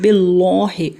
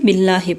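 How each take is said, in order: First: The L sound is heavy and thick. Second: The L sound is light and thin. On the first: The speaker calls it wrong. "ऐसे नहीं पढ़ेंगे" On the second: The speaker calls it right. "बल्कि आराम से बिल्लाहि पढ़ेंगे"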